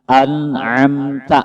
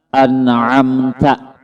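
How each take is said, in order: Both takes have the same delivery.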